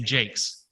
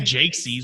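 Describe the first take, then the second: First: The possessive is a single final s sound. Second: The possessive adds a separate extra syllable. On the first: The speaker calls it right. "we say Jake's" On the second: The speaker calls it wrong. "we don't say Jake sees"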